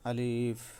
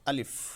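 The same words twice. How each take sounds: First: The vowel is drawn out long. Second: The word is said quickly without lengthening. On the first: The speaker calls it wrong. "আমরা অনেকে বলে থাকি যে আলিফ এরকম" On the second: The speaker calls it right. "এটা বলতে হবে দ্রুত গতিতে"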